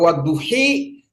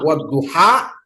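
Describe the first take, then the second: First: The final vowel is a clear i. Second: The final vowel is an open a. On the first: "kalau dia kasroh" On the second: "kalau dia misalnya patah"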